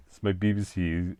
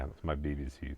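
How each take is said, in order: First: Put-on BBC English, firmer and more careful; lightly mock BBC newsreader accent. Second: Said in the usual way. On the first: Shown as a demonstration. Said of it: "Queen's English".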